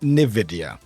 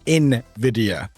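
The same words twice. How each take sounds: First: The word begins without an 'en' sound. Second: The word begins with an 'en' sound. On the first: The speaker calls it wrong. "not Nvidia" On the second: The speaker calls it right. "as in in, E N"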